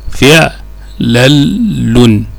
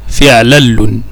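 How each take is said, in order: First: فعلل very slowly as fi', lal, lun; syllable by syllable. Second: Said in the usual way. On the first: Shown as a demonstration. Teacher spelling out the third pattern, فعلل slow and segmented. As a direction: break فعلل into three chunks with pauses between.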